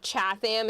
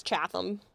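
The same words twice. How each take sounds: First: Chatham said CHAT-ham with a full H; wrong Chatham. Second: Chatham with soft H, CHAT-um; right Chatham. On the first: Showing viewers the wrong way, Chatham with the H. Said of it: "It's not". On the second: Teaching viewers the local way, Chatham as CHAT-um. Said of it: "a soft H with all of these". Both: Shown as a demonstration.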